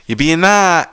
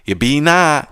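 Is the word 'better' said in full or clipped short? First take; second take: clipped; clipped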